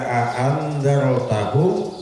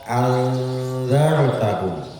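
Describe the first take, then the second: First: Both glottal stops at the start are pronounced clearly. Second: The second glottal stop is replaced by a vowel. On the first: "Dua alif dua hamzah ini bisa ditampakkan semua bacaannya" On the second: "yang kedua itu menjadi ganti"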